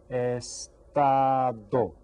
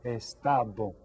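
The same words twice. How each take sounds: First: Very slow, long separate syllables; syllables sounded out. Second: Said in the usual way. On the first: Shown as a demonstration. Teacher presents a word to count, syllables stretched. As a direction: stretch "Estado" into three held beats. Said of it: "How about this word?". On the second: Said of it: "Try that".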